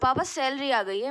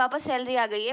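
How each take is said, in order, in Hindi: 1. यह अकड़ और दिखावे वाले लहजे में कहा गया है। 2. यह शांत और सहज लहजे में कहा गया है। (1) "आप टांग पे टांग रख कर बोल रहे हो" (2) "आप बैठ के आराम से बोल रहे हो"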